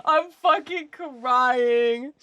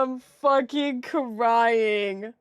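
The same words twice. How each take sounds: First: Slow words through leftover laughter; slow laughing drawl; laughing, drawn out. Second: Slow words through laughter; laughing, drawn out. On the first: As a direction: talk while still cracking up. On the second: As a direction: say it again still giggling. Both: Real, not acted.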